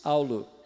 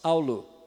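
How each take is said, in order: Both takes have the same delivery.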